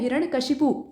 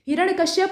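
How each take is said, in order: First: The name ends with the sound 'shipu'. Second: The name ends with the sound 'shyap'. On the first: This is the actual correct form. The speaker calls it right. "लेकिन असल में होता है हिरण्यकशिपु" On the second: This is the common everyday way of saying it. The speaker calls it wrong. "हिरण्यकश्यप हम लोग बोल देते हैं"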